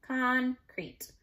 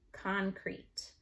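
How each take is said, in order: First: "Concrete" with a gap, con, then crete; split by syllable. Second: Said in the usual way. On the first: Shown as a demonstration. Teacher showing spelling by syllable, split by syllable. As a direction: break "Concrete" into two raised, separate syllables. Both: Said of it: "you wanna spell by syllable".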